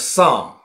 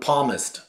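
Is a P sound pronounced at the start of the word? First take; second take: no; yes. First: The word starts with no P sound. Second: The word starts with a pronounced P sound. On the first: The speaker calls it right. "应该是Psalm" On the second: The speaker calls it wrong. "他读Palmist"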